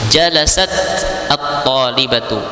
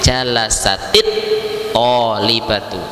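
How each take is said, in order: First: The final t of jalasat carries no vowel. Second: The final t takes an i, linking into the next word. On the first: "fi awal marrah ta ta'nis hiya sakinah" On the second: "kalau kita baca dengan menyambung dengan kata setelahnya maka dikasrohkan"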